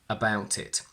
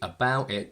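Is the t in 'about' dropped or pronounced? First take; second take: pronounced; dropped. First: The t of about is clearly pronounced. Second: The t of about is dropped. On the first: "So I would say" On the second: "I would never say"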